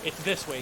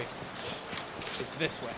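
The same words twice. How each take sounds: First: Said in the usual way. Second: Slow drawn-out whisper of "It's this way". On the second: Shown as a demonstration. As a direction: breathe "It's this way" slowly, no voice. Repeated line, second whispered.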